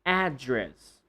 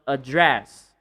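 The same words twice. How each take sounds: First: ADdress, strong AD and weak dress; stress on first syllable. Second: AdDRESS, weak a and drawn-out DRESS; stress on second syllable. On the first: Teacher repeats the noun, first-syllable stress. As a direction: address with the weight up front. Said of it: "if you're talking about the noun". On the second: Teacher contrasts it with the noun, second-syllable stress. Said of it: "not address". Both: Shown as a demonstration.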